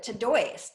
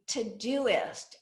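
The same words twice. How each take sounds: First: TODOIST said as to-DOYST; common mispronunciation. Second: TODOIST said slowly as to-DO-ist; correct pronunciation. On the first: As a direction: run "oi" together as "oy" in "Todoist". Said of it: "Most people would pronounce it". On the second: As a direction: split "Todoist" like to-do list, slowly. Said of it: "as in to-do list". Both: Shown as a demonstration.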